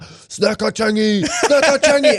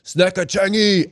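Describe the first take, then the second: First: Chanted, very high, drawn-out repeated call; chanted, imitate a whole theatre yelling, pitched far up; mock crowd chant. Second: High, drawn-out heckler's call; mock yell. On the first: Whole crowd starts yelling at comedian, mock crowd chant. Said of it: "whole crowd just started yelling out". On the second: Someone in the crowd yells out, mock yell. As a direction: imitate one person yelling out, slow and pitched up. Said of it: "just yelled out".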